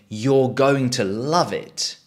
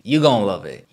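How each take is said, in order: First: Going to is said in full. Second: Going to is reduced to gonna.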